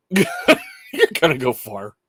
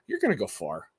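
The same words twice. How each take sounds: First: Slow, louder, high-pitched through laughter; laughing. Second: Said in the usual way. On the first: Real, not acted. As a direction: crack up as you say it. Cracks up repeating his own retort.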